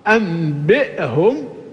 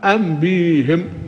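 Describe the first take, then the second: First: A glottal stop is heard before the ending. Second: A long i vowel replaces the glottal stop. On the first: "هذه القراءة الأصل أنبئهم" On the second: "أبدلت الهمزة ياء فأصبحت أنبيهم"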